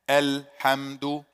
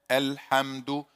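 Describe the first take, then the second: First: The first vowel is light, tongue relaxed low. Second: The first vowel is light, tongue relaxed low.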